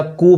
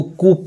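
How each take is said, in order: First: कू said as "koo"; कू with no p sound; correct pronunciation. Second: कूप said with a final p, "koop"; mispronounced कूप, closing on p; wrong pronunciation. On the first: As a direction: end कू on the vowel, silent p. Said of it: "तो क्या पढ़ाएगा". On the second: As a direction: sound out the p in कूप. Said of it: "जो नहीं जानते हैं". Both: Shown as a demonstration.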